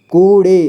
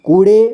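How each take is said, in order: First: कूड़े split as कू, ड़े; syllable by syllable. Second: Said in the usual way. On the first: Shown as a demonstration. Teacher showing learners कूड़े, sounded out in parts. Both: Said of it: "इसे पढ़ेंगे".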